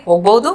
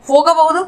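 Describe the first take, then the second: First: ಹೋಗಬಹುದು squeezed to "hogbaudu"; colloquial short form. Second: Said in the usual way. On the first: Shown as a demonstration. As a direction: drop the middle a and the h sound in ಹೋಗಬಹುದು. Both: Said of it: "इसको बोलेंगे".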